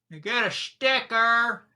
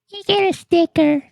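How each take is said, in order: First: It is said in his normal voice. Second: It is said in a put-on little girl voice.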